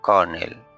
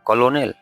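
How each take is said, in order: First: The word is said in its standard pronunciation. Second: The word is sounded out following its spelling. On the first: The speaker calls it right. "সঠিক উচ্চারণ হচ্ছে কর্নেল" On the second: The speaker calls it wrong. "No"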